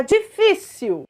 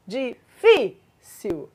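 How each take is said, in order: First: Said in the usual way. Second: DIFÍCIL very slowly split, di... FÍ... cil; syllable by syllable. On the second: Shown as a demonstration. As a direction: break DIFÍCIL into three, stressing the middle FÍ. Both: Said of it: "mas é paroxítona".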